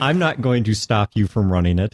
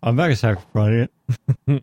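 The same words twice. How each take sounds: First: Measured, fully worded second attempt; careful retry. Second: Fast, run-together muddled line; rushed fumble. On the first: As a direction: say it deliberately, word by word, correcting the slip. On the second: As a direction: blurt it out too quickly and trip over it. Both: Real, not acted. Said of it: "Let me try that again".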